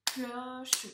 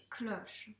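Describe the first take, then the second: First: "Cloche" in two beats, clo-che, final e sounded; split into syllables. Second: Said in the usual way. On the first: Shown as a demonstration. Teacher tapping syllables for a pupil, "Cloche" split clo-che. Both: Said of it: "tape-moi les syllabes du mot cloche".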